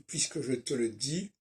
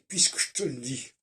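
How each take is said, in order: First: Every weak e vowel is fully pronounced. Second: The weak e vowels are dropped and run together. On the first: This is how it is written. The speaker calls it wrong. "Si j'écris" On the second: This is how it is really spoken. The speaker calls it right.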